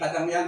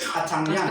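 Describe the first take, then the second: First: The middle consonant is a plain d sound. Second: The middle consonant is a ts sound. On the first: This is how others pronounce the word. "hindi kadangyan ang pronunciation namin" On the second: This is how the speaker's own tribe pronounces it. "kundi katsangyan"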